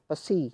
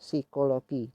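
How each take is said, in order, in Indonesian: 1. P di awal dibaca dengan vokal. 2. P di awal tidak dibaca. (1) "jangan pesi" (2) "P-nya nggak usah dibaca"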